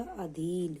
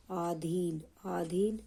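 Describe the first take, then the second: First: अधीन said with a short a at the start; the right way, अधीन with short a; correct pronunciation. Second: आधीन said with a long aa at the start; the wrong way, आधीन with aa; wrong pronunciation. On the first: Teacher models the correct form: अधीन with short a. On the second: Teacher shows the wrong form: आधीन with aa. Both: Shown as a demonstration. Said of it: "गलत होगा".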